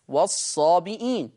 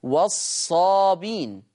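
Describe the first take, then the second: First: والصابئين said with a clear hamza, wa-ṣṣābiʾīn; والصابئين recited with the glottal stop before the long ī; Hafs reading. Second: والصابين said slowly with no hamza, wa-ṣṣābīn; والصابين recited slowly, the glottal stop dropped; Warsh reading. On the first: Teacher giving the Hafs reading with hamza, careful recitation. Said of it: "يقرأ حفص بالهمز". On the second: Teacher contrasting Warsh without hamza, slow careful recitation. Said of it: "أما ورش يقرأ بحذف الهمز". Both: Shown as a demonstration.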